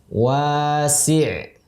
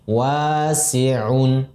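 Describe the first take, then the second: First: The word stops on a bare final consonant. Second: The word ends with a full -un ending. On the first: The reader stops at this word. "Apabila dalam kondisi waqaf, sama dengan bacaannya adalah wasi'" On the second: This is the full form used when reading on. "menjadi wasi'un"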